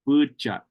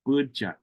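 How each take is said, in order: First: The second syllable starts with a ch sound. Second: The second syllable starts with a ch sound.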